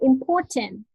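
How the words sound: The t is said clearly, British style. "for British English, they say they, they will say important"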